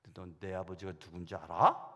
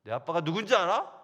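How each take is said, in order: First: Calm comeback. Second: Loud challenge. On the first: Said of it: "그렇게 하려고 딱 준비하고". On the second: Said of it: "그렇게 말할 작정이에요". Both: Pretend.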